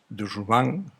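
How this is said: The name is pronounced the French way. "lo que dicen los franceses"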